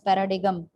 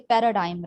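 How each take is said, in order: First: The word is pronounced exactly as it is spelled. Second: The word is pronounced in its usual way. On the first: "sometimes people pronounce it pronounce it as paradigm, because it spells like that" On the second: "or we say paradigm"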